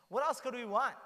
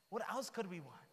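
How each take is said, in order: First: Louder and higher, full of wonder; excited exclamation. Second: Said in the usual way. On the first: Real, not acted. Preacher marvels to his listeners, loud and awed. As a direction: burst out in amazement at such a gift.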